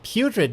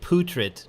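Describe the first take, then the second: First: The first syllable sounds like 'pew'. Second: The first syllable sounds like 'poo'. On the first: The speaker calls it right. "but like pew" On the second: The speaker calls it wrong. "Not like poo"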